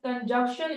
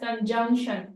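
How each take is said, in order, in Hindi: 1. बीच का 'n' sound silent रहता है। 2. बीच का 'n' साउंड साफ़ बोला जाता है। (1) "it is pronounced is as conjunction. ... Na sound is basically silent here" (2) "It is not pronounced as conjunction"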